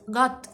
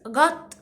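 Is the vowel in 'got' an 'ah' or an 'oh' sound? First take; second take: ah; ah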